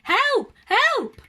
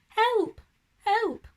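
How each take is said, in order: First: It is said very loudly. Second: It is said very quietly.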